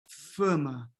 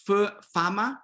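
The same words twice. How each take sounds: First: Fama with closed raised a; Portuguese fama, closed a. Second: Fama with open Spanish a; Spanish-style fama, open a. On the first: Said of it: "closing this A". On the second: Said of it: "in Spanish, you have A". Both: Shown as a demonstration.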